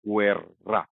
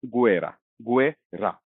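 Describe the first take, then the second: First: गुएर्रा with a long trilled rr; rolled double r. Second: गुएरा with one light tapped r; गुएरा, the r just flicked once; single tap r. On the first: Teacher showing the rolled rr against the single r. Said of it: "जब हम इसको इस तरह से लिखते हैं". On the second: Teacher contrasting single r with double rr. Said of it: "इसका simple सा प्रोनंसिएशन होता इसका गुएरा". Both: Shown as a demonstration.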